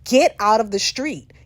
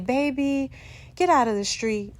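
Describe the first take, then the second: First: It is yelled loudly and urgently. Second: It is said gently and calmly.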